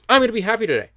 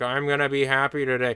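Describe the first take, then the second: First: It sounds lively and upbeat. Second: It sounds flat and depressed.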